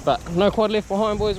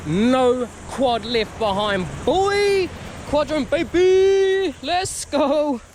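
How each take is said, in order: First: Said in the usual way. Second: Chanted, slow, high triumphant cheer; chanted, cheer the motto like a victory. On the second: Real, not acted. Triumphant motto after find.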